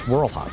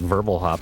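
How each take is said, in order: First: The name begins with a W sound. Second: The name begins with a V sound. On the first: The speaker calls it right. "but no, it's Whirlhop" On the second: The speaker calls it wrong. "like a German W"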